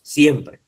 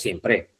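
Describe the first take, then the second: First: "siempre" stressed on SIEM, falling; correct first-syllable stress. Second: "siempre" stressed on PRE, rising; misstressed siem-PRE; wrong final stress. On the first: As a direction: hit the start of "siempre", let PRE drop. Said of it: "es siempre". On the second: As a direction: push the last syllable of "siempre". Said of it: "No es siempre". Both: Shown as a demonstration.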